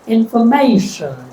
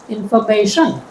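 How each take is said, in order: First: The stress is on the third syllable. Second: The stress is on the fourth syllable. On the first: "If I stress the third" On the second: "If I stress the fourth"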